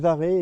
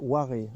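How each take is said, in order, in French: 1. Le nom commence par un son V. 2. Le nom commence par un son W. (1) "moi je dis Varé" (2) "il paraît que ça se prononce Waré"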